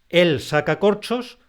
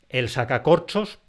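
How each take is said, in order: First: Each word, including "saca", carries its own stress. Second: Only "corchos" is stressed; "saca" is unstressed. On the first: A man is uncorking bottles. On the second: It names the tool for removing corks.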